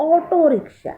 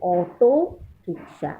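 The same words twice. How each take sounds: First: ऑटो lifted high and clear before rickshaw; teacher stressing the full ऑटो rickshaw, higher. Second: Said in the usual way. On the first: Shown as a demonstration. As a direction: lean on ऑटो so children keep it, then rickshaw falls. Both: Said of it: "हम लोग rickshaw नहीं बोलते".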